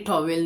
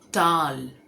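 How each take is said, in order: First: It is said as two distinct syllables. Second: It is said as one syllable, rhyming with 'dal'. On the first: The speaker calls it wrong. "ये actually टॉवेल नहीं है" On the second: The speaker calls it right. "इसे कहते हैं टाल। जैसे हम दाल बोलते हैं ना"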